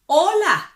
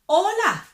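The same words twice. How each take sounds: No difference in how they are said.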